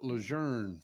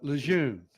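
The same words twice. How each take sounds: First: The word is said with an R-like sound. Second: The word is said without any R sound. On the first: This is how outsiders say it. "these other people around the world call it Lejeune for some reason" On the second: This is how the locals say it. "We call it Lejeune"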